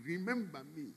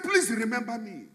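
First: Fading plea. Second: Pleading cry. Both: Acted. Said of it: "That is the cry".

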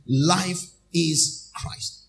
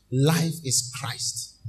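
First: Very slow, stretched words; slow refrain. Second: Drawn-out, weighty answer; slow refrain. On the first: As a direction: savour each word. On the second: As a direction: let it sink in slowly. Slow refrain after call. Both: Acted.

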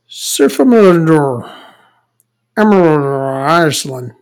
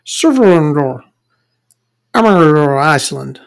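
First: Surfamörður mumbled slowly, Iceland stretched out; Icelandic pronunciation. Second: Surfamörður mumbled quickly, Iceland drawn out slowly; mumbled Icelandic. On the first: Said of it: "That's how you pronounce it". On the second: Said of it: "You just mumble it a little bit". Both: Shown as a demonstration.

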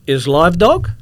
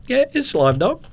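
First: Loud, high astonished question; broken-English question, voice rising at the end; imitated foreign security guard. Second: High, louder mock broken-English answer; echoing the guard. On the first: Guard pointing at x-ray again, loud astonishment. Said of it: "He goes, he points again". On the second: Traveller confirming to guard, high mimicking answer. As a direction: confirm it back in his pitched-up style. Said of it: "I said".

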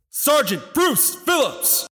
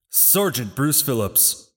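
First: Stiff barking toy soldier. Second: Said in the usual way. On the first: Acted. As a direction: call the name out across the field. Final roll call for the fallen.

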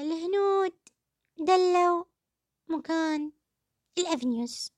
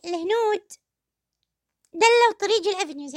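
First: Each word set apart by long pauses, reciting "الهنود دلوا مكان الأفنيوز" slowly like a poem; drawn-out ironic recital, word by word; slow mocking recital. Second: Said in the usual way. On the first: Quoting the actress to viewers, slow mock recital. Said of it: "شعر بقوله". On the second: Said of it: "يعني".

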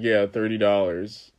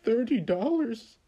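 First: Said in the usual way. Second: Shocked customer. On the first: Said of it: "And I was like". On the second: Retold or imitated. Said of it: "he was just like".

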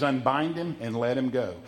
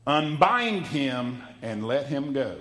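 First: Said in the usual way. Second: Unbind him and let him go, slow, with weight on Unbind; deliberate slow delivery. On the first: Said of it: "But he says". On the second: Shown as a demonstration. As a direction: lean hard on Unbind, slowly. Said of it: "let me say this right here".

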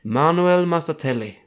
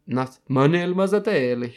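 First: Name rolled out in a hammed-up Italian accent, louder; fake Italian accent. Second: Said in the usual way. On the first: Shown as a demonstration. Reading the ranking list, slips into fake Italian accent. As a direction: say Manuel Massatelli the Italian way, big and proud. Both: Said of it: "I can't do it without the fake Italian accent".

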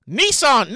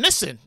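First: "Nissan" said nee-SAHN; long-vowel pronunciation. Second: "Nissan" said NISS-un; short "i" in "Nissan", weak second syllable; short-vowel pronunciation. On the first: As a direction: stretch the second vowel of "Nissan" into a long "ahn". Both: Shown as a demonstration. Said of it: "hard time pronouncing".

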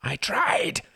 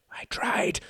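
First: High, loud desperate cry; anguished cry. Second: Unvoiced, intense whisper; fierce whisper. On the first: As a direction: burst out in anguish. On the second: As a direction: hiss it with force. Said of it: "whispered Reginald fiercely". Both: A narrator's reading.

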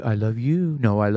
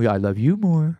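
First: Drawn-out sweet talk; slow lovey-dovey voice. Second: Teasing sweet talk; higher, louder lovey-dovey. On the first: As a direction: coo it slowly to a sweetheart. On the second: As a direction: sing it back brightly. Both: Pretend. Playing lovey phone call.

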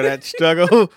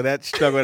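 First: "that struggle" louder with a rising "struggle"; "struggle" leaned on, rising and loud; stressed "struggle". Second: Said in the usual way. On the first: Shown as a demonstration. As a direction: punch "struggle" and lift it. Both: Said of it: "repeating the word".

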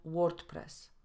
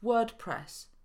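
First: WordPress with Polish o and sounded r; wrong o in WordPress. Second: WordPress with a long neutral vowel, no r; long schwa in WordPress. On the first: Teacher showing the mistake, WordPress with Polish o. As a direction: say WordPress as spelt, short o, r, t. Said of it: "a nie". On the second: Teacher modelling correct English, WordPress with long schwa. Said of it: "Długie szła występuje". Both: Shown as a demonstration.

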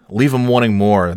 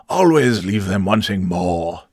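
First: Said in the usual way. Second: Slow, grand British pronouncement; mock-stately British troll voice; proper British accent. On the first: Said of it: "in the immortal words of". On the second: Host quotes the troll's immortal words in a slow, pompous British accent. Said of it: "the great Scott Johnston".

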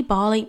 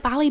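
First: "Bali" with a long open A, as in "bar"; second pronunciation of Bali. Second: "Bali" with a short flat A, as in "pally"; first pronunciation of Bali. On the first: Checking the place name, trying "Bali" with a long AH. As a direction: say "Bali" as "BAH-lee". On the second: Unsure of the place name, trying "Bali" with a short A. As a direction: say "Bali" with the A of "cat". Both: Shown as a demonstration. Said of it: "is it Bali? Bali?".

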